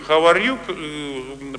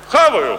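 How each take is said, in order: First: It is said as three distinct words. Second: It is slurred together into one word.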